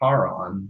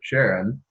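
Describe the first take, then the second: First: The name does not begin with an sh sound. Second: The name begins with an sh sound. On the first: "Should be pronounced Charon" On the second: "most American English speakers will pronounce it Sharon"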